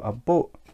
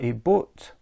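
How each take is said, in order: First: The final T sound is dropped. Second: The final T sound is clearly pronounced.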